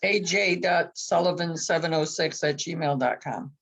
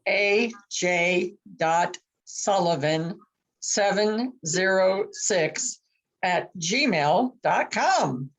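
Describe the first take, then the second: First: It is said fast. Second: It is said slowly.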